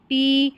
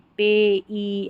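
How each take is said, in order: First: The vowel is a single long ee sound. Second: The vowel is split into two sounds, eh-ee. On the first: The speaker calls it right. "इसको पी पढ़ देंगे क्योंकि ए ई को ई पढ़ा जा रहा है" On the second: The speaker calls it wrong. "ऐसा गलत हो जाएगा"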